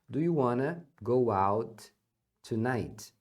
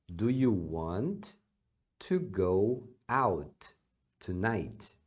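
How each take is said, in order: First: Want and to are joined into wanna. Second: Want and to are said as separate words.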